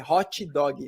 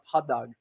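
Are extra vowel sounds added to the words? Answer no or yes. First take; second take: yes; no. First: Extra vowel sounds are added after the consonants. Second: No extra vowel sounds are added anywhere. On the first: "in Brazil, we have the problem to put extra vowel sounds" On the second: "not hot dog"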